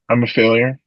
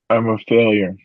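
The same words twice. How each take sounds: First: It is said at a quicker pace. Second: It is said at a slower pace.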